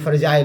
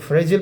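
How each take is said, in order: First: It is said the British way, ending 'jile'. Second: It is said the American way, ending 'jil'.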